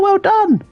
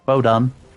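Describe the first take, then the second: First: It sounds lively and excited. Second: It sounds flat and unenthused.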